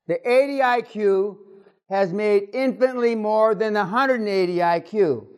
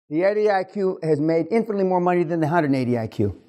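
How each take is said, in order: First: It is said very slowly. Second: It is said at a normal pace.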